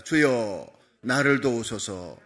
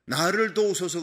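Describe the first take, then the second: First: Slow, low call-and-response prayer line; slow lead-in for repeating. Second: Earnest plea. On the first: Shown as a demonstration. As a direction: say it slowly so the congregation can follow "주여, 나를 도우소서". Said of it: "따라합시다". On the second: Retold or imitated. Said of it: "그러잖아요".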